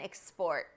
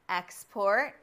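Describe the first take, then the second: First: The stress is on the second syllable. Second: The stress is on the first syllable. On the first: It names the action of shipping goods abroad. "To export means to ship goods or services abroad" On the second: It names the goods sent abroad. "An export is what you send to other countries for sale"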